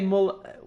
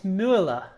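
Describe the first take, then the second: First: The first vowel is a plain u sound. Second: The first vowel is a rounded ü sound. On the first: The speaker calls it wrong. "you don't say Mull" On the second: The speaker calls it right. "say it's Müller"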